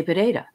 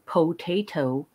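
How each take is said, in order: First: Potato run quickly as "puh-DAY-duh"; loose, reduced vowels in potato; casual Irish pronunciation. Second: Potato said fully, "poh-TAY-toh"; every vowel full in potato; careful pronunciation. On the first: Showing how potato rolls off the tongue, casual pronunciation. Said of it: "it just rolls off your tongue". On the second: Recalling how potato sounded insane, careful pronunciation. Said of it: "I thought it sounded insane". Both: Shown as a demonstration.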